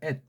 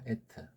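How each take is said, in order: First: The word ends in a clipped, unreleased t. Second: The final t is followed by a short vowel. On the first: "받침이 명령하면 at 그랬죠" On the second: "그냥 에트가"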